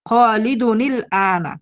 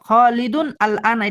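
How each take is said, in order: First: The words are linked with an added i sound. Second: Each word is said separately, without linking.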